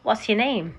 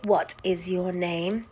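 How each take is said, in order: First: The word is is contracted to s. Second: The word is is said in full. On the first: The speaker calls it right. "I'd say" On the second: The speaker calls it wrong. "I don't say"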